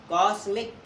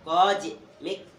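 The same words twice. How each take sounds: First: कॉस्मिक with a plain s sound, the slip before the correction; wrong s sound. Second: कॉस्मिक said slowly with a z sound, like kozmik. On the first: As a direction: say कॉस्मिक with s, not z. (कॉस्मिक में स की आवाज़, गलत उच्चारण) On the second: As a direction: drag out कॉस्मिक, buzzing the z. (कॉस्मिक धीरे से, ज़ की आवाज़ के साथ) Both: Shown as a demonstration. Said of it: "sorry, कॉस्मिक".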